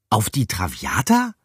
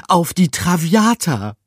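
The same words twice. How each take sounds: First: A mild rising echo of "Traviata"; surprised echo. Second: High loud rat cry of "Traviata"; voice cracking with excitement. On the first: Mouse repeating the ship's name, mildly surprised. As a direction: repeat it, just a little astonished. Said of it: "wiederholte Pikandou". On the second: Rat naming the dream ship, voice cracking high. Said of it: "Gruyères Stimme überschlug sich". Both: A narrator's reading.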